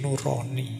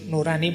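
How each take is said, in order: First: The second syllable has a rounded 'o' vowel. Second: The second syllable has an open 'a' vowel. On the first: It is a reading that carries a different meaning. The speaker calls it wrong. "Kalau dibaca basa Jawa tadi nurani" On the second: It is the Indonesian word for inner conscience. The speaker calls it right. "nurani bahasa Indonesia ya"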